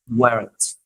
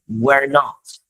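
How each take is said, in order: First: The words are merged into one short syllable. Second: Both words are said in full.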